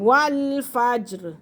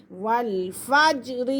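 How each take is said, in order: First: والفجر with the ج bounced, a short echoing release; qalqala on jeem. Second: Said in the usual way. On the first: Shown as a demonstration. Teacher shows students the qalqala on jeem, bounced release. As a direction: snap the ج in والفجر with a small bounce. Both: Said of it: "جیم پہ قلقلہ ہو رہا ہے".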